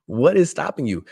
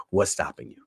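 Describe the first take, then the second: First: "What IS stopping you", high and emphatic; stress on IS. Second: Said in the usual way. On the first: Real, not acted. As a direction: punch "is" higher and louder. Same question repeated with emphatic "is.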